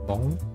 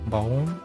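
First: The vowel sounds like the one in 'go'. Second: The same.

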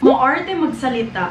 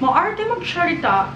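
First: It is read in a plain, neutral way. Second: It is read in an affected, prissy way.

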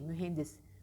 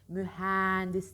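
First: The e vowel is said with a narrow mouth. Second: The e vowel is said with an open mouth. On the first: The speaker calls it right. "E derken ağzımız açılmayacak" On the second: The speaker calls it wrong. "E açık. Hayır"

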